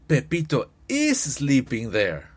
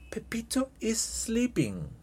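First: The auxiliary "is" is strongly stressed. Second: No special stress falls on "is".

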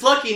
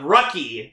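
First: The name starts with an L sound. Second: The name starts with an R sound. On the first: The speaker calls it right. "His name is Lucky" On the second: The speaker calls it wrong. "not Rucky"

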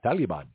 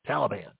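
First: The word has a foreign-style pronunciation. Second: The word has an American pronunciation. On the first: This is a non-American way of saying it. "the only person in America that says Taliban is Obama" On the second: This is how most Americans say it. "What do Americans say?"

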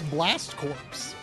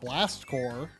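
First: The last word ends with p and s sounds. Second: The last word ends without p or s sounds. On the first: The speaker calls it wrong. "if you say it like, you know, you would spell it" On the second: The speaker calls it right. "the correct pronunciation"

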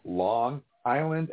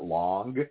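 First: No hard G sound links into 'Island'. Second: A hard G sound links into 'Island'. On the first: The speaker calls it right. "Notice I said Long Island" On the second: The speaker calls it wrong. "and not Long. If you pronounce the G wrong"

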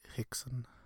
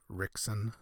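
First: The name begins with a breathy H sound. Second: The name begins with an R sound. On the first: The speaker calls it right. "it's Hickson" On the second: The speaker calls it wrong. "instead of Rickson"

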